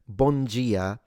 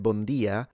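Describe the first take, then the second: First: It is said with a Brazilian Portuguese pronunciation. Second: It is said with a European Portuguese pronunciation. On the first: "I believe that's like the Brazilian pronunciation" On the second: "I know the people in Portugal pronounce it like that"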